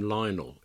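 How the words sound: The name is said with a British pronunciation. "In the UK, we would pronounce his name Lionel"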